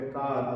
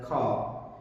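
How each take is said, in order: First: Indian English accent with the final r pronounced. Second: American/British accent, aspirated k, no final r.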